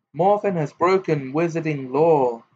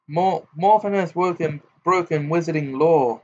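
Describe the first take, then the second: First: Stern, measured statement; understated official firmness. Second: Mocking, pompous sing-song, pitched up; exaggerated mock-official tune; pompous imitation. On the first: A narrator's reading. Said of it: "said Ogden sternly". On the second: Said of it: "Gaunt imitated Ogden's voice, making it pompous".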